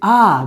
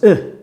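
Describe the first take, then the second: First: The vowel is long and full. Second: The vowel is short and weak. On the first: "These are very long sounds" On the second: "they make them lazy"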